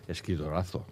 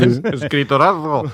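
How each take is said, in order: First: The word is said at normal volume. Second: The word is shouted loudly. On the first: "Que lo dice así" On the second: "Gritaremos un poquito más"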